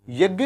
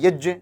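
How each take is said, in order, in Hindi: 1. इस संयुक्त व्यंजन का उच्चारण g की ध्वनि से होता है। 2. इस संयुक्त व्यंजन का उच्चारण j की ध्वनि से होता है। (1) "पर हम बोलते क्या है?" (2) "और ये क्या है?"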